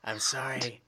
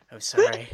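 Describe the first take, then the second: First: Whispered apology; whispering. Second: Said in the usual way. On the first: Pretend. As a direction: whisper a mock-sheepish sorry. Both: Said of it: "Shh, be quiet".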